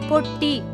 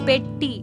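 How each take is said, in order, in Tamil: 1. முதல் உயிர் ஒலி 'o' ஒலி. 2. முதல் உயிர் ஒலி 'e' ஒலி. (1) "தவறான உச்சரிப்பு" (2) "இதுதான் சரியான உச்சரிப்பு"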